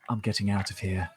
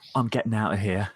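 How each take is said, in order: First: The t sounds are clearly pronounced, not glottal. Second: The t sounds are replaced by glottal stops. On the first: The speaker calls it wrong. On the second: The speaker calls it right.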